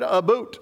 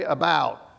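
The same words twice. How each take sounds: First: "boot" said with a Canadian oo vowel; Canadian pronunciation. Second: "about" with an open Southern ow; Southern pronunciation. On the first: Retold or imitated. Pastor imitating Canadian friends' accent, "boot" with a long oo. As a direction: say "a boot" for about, Canadian-style. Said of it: "they're still talking Canadian". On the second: Shown as a demonstration. Pastor showing how the South says it, "about" with open ow. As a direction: say "about" Southern-style, ow rather than oo. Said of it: "in the South we would say".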